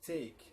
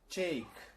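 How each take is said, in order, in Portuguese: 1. O t é um som de t simples. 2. O t soa perto de um ch. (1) "ao invés do" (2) "no inglês e irlandês, essa pronúncia vai ser mais com um C H no lugar do T"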